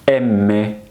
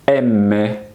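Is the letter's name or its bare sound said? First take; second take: name; name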